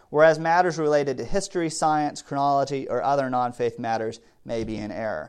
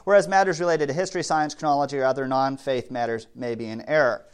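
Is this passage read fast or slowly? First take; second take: slowly; fast. First: The passage is read at a slower pace. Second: The passage is read at a fast pace. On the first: "I'm going to read that slower" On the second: "I know I talk fast"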